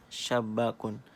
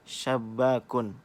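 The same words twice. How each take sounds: First: Said in the usual way. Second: Syabakun drawn out slowly, every sound clear; slow dictation. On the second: Shown as a demonstration. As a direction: say syabakun slowly so students hear the first letter. (ucapkan syabakun perlahan dan jelas) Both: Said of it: "Apa yang kalian dengar".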